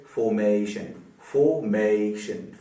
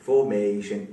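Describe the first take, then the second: First: formation split slowly into three syllables. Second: Said in the usual way. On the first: Shown as a demonstration. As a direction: stretch formation out as fo, may, shun. (Formation को तीन हिस्सों में धीरे-धीरे) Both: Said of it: "तीन syllable वाला हो गया".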